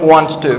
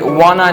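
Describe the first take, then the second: First: Both words are said fully and separately. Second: The words blend into one short reduced word. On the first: "instead of want to" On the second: "native speakers say wanna"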